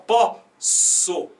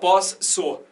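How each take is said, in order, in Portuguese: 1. O som do S é simples entre as sílabas. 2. O som do S é duplo entre as sílabas. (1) "Você fala pó, so. Então é só um S" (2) "você não fala pós, so"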